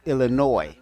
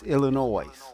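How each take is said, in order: First: The final S sound is left silent. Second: The final S sound is pronounced. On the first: The speaker calls it wrong. "people say it so fast that it sounds like it's just Illinois" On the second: The speaker calls it right. "the S is not silent"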